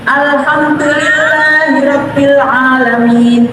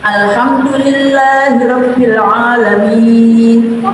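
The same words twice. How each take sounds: First: The vowel before the final sound is slightly lengthened. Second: The vowel before the final sound is held long. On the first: "Kalau bacanya cepat, panjangnya sedikit saja nggak apa-apa, dua harokat" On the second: "kalau pelan-pelan sampai enam harokat"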